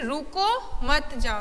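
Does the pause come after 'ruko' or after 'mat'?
after ruko. There is a pause after the first word. Stop, do not go. "यहाँ कहा जा रहा है कि रुक जाओ मत जाओ"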